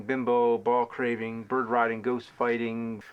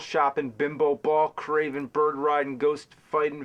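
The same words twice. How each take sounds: First: Scripted rant, held back and slowing at the end; measured insult list. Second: Brisk, even run of insults; scripted rant, run straight through; brisk insult list. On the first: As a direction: space out the insult list evenly. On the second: Recording takes of a scripted insult rant. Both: Acted.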